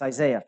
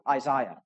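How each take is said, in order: First: The name is said with an American pronunciation. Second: The name is said with a British pronunciation. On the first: "But it's Isaiah for us" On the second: "That's how the British say it"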